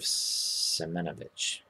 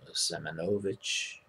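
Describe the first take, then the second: First: The stress is not on the third syllable. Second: The stress is on the third syllable. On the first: The speaker calls it wrong. "instead of Semenovich, which now I have stuck in my head" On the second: The speaker calls it right. "It is emphasized on the third syllable"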